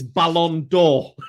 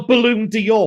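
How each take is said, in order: First: The first word has a French-style vowel. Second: The first word sounds like English 'balloon'. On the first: The speaker calls it right. "for the love of God, it's Ballon d'Or" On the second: The speaker calls it wrong. "not the Balloon d'Or"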